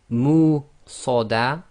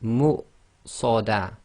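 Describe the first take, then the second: First: The U sound is held long. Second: The U sound is cut short. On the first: The speaker calls it wrong. "instead of saying" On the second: The speaker calls it right. "it's half the length of the U sound"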